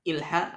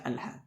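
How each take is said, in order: First: The word begins with an i vowel. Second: The word begins with an a vowel. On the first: The speaker calls it wrong. "tidak ilha" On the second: The speaker calls it right. "dibaca alha dengan fathah"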